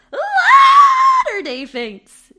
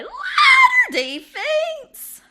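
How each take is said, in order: First: Very high, very loud, slow screech; horror scream. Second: Very high, loud, slow cry; horror shout. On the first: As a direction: shriek the name like a horror trailer. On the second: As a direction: scream the attraction name. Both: Acted. Shouted ad title.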